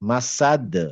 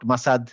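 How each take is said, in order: First: The final consonant ends with a bouncing release. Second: The final consonant stops flat with no bounce. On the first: The speaker calls it right. "একটু বাউন্সি টাইপের উচ্চারণ করব" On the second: The speaker calls it wrong. "Not মাসাদ"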